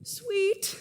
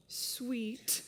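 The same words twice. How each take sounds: First: Said in the usual way. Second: Soft, lower sweet. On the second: Acted. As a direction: drop to a hushed, lower "Sweet.". Juliet repeats word, much softer.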